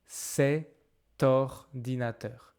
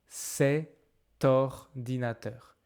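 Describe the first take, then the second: First: A t sound links the two words. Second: The same.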